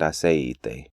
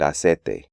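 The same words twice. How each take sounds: First: The E is overstressed, pulling the diphthong apart. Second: The I sound of the diphthong is dropped. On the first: "emphasize the E" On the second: "eliminate the I sound"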